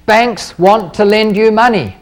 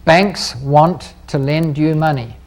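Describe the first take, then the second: First: Slow, stressing you in "banks want to lend you money"; key takeaway, said slowly; slow emphatic statement. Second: "Banks" stressed, slow and softer; dictated for notes, slow; slow, quieter repeat. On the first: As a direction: lean on "you", unhurried. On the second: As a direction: drop the voice and slow down, hitting "Banks". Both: Shown as a demonstration. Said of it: "I suggest you write that down".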